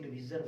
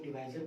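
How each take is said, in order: First: डिवीजर with a long "ee" in the middle, di-VEE-jar; alternative pronunciation. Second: डिवाइजर with a long "eye" in the middle, di-VAI-zar; alternative pronunciation. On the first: Teacher shows students the other way of saying it, डिवीजर with an "ee" vowel. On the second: Teacher shows students one accepted way of saying it, डिवाइजर with an "eye" vowel. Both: Shown as a demonstration. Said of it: "उच्चारण पे मत जाइए".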